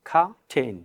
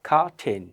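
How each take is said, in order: No difference in how they are said.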